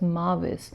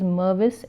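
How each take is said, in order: First: The first syllable sounds like 'mar'. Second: The first syllable sounds like 'mer'. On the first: The speaker calls it wrong. "I mistakenly spelt and pronounced the name as Marvis" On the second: The speaker calls it right. "the correct name of the author is Mervis"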